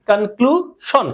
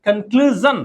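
First: কনক্লুশন said with a plain "shon" ending, the common mistake; wrong pronunciation. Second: কনক্লুশন said with a "zhan" ending, like "konkluzhan"; correct pronunciation. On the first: Teacher shows students the common wrong কনক্লুশন, with "shon". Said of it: "অশুদ্ধ করে এটাকে উচ্চারণ করি". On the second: Teacher corrects students: কনক্লুশন ends in "zhan". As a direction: give কনক্লুশন the proper "zhan" sound at the end. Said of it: "এটা বলে কি হবে". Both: Shown as a demonstration.

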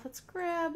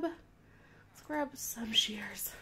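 First: Said in the usual way. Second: Slow secretive whisper; sneaky whisper. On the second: Acted. Sneaky whisper while playing.

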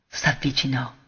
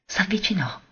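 First: Quietly voiced, softer than the narration; a hushed echo of the word; soft murmur. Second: Hushed, unvoiced whisper, falling away; a secret step closer, barely voiced; breathless whisper. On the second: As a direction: breathe it out as if holding your breath. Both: A narrator's reading. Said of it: "trattenendo il respiro".

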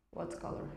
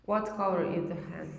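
First: Soft unvoiced whisper of what color; whispered prompt. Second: Said in the usual way. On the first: Shown as a demonstration. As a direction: breathe the words what color without voice.

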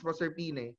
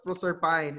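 First: Proserpine said pro-ser-PEE-neh; correct pronunciation. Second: Proserpine ending like "pine"; rejected pronunciation. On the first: Teacher corrects the name, Proserpine as pro-ser-PEE-neh. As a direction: sound the final e in Proserpine. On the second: Teacher shows what not to say, Proserpine rhyming with fine. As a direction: say Proserpine as pro-ser-PINE, silent final e. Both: Shown as a demonstration. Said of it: "We don't name it as".

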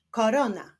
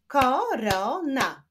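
First: Said in the usual way. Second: "korona" slowly split as ko, ro, na; three slow beats on "korona"; syllable by syllable. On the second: Shown as a demonstration. Teacher clapping syllables for pupils, "korona" split in three. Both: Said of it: "Wyklaszczmy sylaby".

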